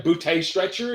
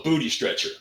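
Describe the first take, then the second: First: "bootay" ending in a long AY; misplaced emphasis. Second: Said in the usual way. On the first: Acted. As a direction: puzzle over "bootay", leaning on the second syllable. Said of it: "where's the emphasis".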